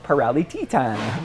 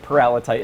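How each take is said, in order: First: Paralititan with the ending said as "tee-TAN"; Italian-style pronunciation. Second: Paralititan with TITAN said as "TIE-tun"; English pronunciation. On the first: Retold or imitated. Paleontologist quotes colleagues in Italy, Paralititan ending "tee-TAN". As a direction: imitate Italian colleagues saying Paralititan, "ee" vowels in -lititan. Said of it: "they would pronounce it". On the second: Shown as a demonstration. Paleontologist tells host how they say it, Paralititan ending "TIE-tun". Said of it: "we pronounce it".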